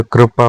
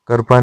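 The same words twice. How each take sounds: First: कृपा with kr joined; correct form. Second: कृपा with vowel before r; wrong form. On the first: Teacher giving the correction, कृपा opening on kr. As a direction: say कृपा as kri-pa, kr run together. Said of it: "होता है". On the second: Teacher showing learners the mistake, कृपा as karpa. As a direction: say कृपा as kar-pa. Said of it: "नहीं होता". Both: Shown as a demonstration.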